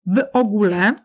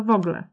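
First: "W ogóle" with every syllable sounded, w-o-gó-le; full pronunciation. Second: "w ogóle" shortened to "wogle", ó dropped; shortened pronunciation. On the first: („W ogóle” wymówione w pełni, z wyraźnym ó) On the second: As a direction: say "w ogóle" as two syllables, WO-gle. („w ogóle” skrócone do „wogle”, bez ó) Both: Shown as a demonstration. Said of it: "skraca się do".

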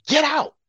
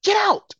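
First: Sharp higher shout of GET out. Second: Much higher shrill shout of GET out. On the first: Telling ungrateful critics to leave the country, sharp higher shout. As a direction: bark it at them to leave. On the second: Ordering ungrateful critics out, a much higher shout. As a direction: throw them out with everything you have. Telling critics to leave again. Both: Real, not acted.

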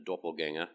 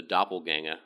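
First: Said in the usual way. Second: "doppelganger" said lightly in a put-on Australian accent; mock Australian accent. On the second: Shown as a demonstration. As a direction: toss off "doppelganger" with a playful Australian twang. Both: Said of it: "I don't know why I use an Australian accent".

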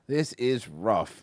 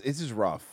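First: Drawn-out This is rough; slow. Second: Said in the usual way. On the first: Shown as a demonstration. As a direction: stretch "This is rough" slowly.

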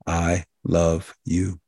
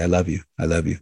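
First: Slow, heartfelt and sincere; mean every word, let it land slowly; tender, deliberate "I love you"; with feeling. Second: Rattled off without feeling; careless, automatic "I love you"; mindless. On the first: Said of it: "you say that with feeling and with meaning". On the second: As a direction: toss it off like a habit, meaning nothing. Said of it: "people use it mindlessly". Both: Shown as a demonstration.

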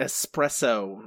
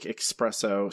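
First: "Espresso" drawn out slowly, a clean s and no k; careful enunciation. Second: "espresso" with a k sound slipped in, "expresso". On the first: Shown as a demonstration. Corrected by co-host, carefully enunciates "Espresso" with no x. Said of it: "trying to enunciate as well as I". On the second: Real, not acted. Guessing at a coffee drink, "espresso" slips out as "expresso". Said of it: "Did you just say espresso?".

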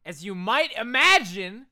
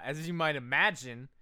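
First: "as you might imagine" much louder and higher, hammed up; exaggerated emphasis. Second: Said in the usual way. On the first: Shown as a demonstration. Podcaster redoing a line, "as you might imagine" loud and overemphatic.

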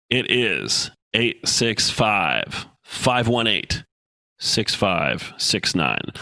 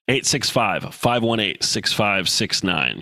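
First: Very slow, each digit spaced out; slow dictation. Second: Said in the usual way. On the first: Shown as a demonstration. Host dictating his call-in number slowly to listeners. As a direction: read the number slowly so they can write it down. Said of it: "if you're ready to write it down, here we go". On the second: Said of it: "here we go".

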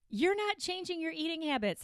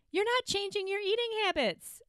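First: Said in the usual way. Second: High, amused delivery; stating the obvious with a laugh; amused, near laughing. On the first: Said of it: "let's get real". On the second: Real, not acted. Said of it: "I'm laughing because it's just a basic".

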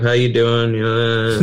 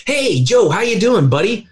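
First: Depressed voice. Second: Energetic greeting. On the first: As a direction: sound slumped and defeated. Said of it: "they talk like this". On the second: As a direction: greet him like you're full of energy. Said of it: "somebody that's energetic and vibrant". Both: Pretend.

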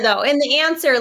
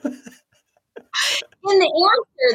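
First: Said in the usual way. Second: Laughing through the words, drawn out slowly. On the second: Real, not acted. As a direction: let the laugh stretch the phrase. Laughing while repeating her answer.

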